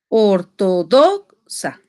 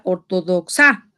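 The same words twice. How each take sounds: First: The stress is on the syllable do. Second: The stress is on the syllable sa. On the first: The speaker calls it right. "la sílaba tónica es do" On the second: The speaker calls it wrong. "No puede ser sa porque si no se diría"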